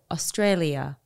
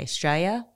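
First: It is said in a British-style elocution accent. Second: It is said in a broad Australian accent. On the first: This is the form drilled in elocution lessons. "I had to sit there with a tape recorder and go" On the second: This is how most Australians say it. "like most Australians will say"

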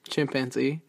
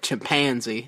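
First: The middle syllable pan is not emphasized. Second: The middle syllable pan is strongly emphasized.

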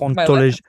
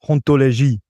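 First: The word is said with an English accent. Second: The word is said with a French accent.

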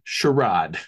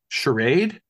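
First: The word is said with an English pronunciation. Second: The word is said with an American pronunciation. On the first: "they pronounce it charade" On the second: "in England, they do not say charade"

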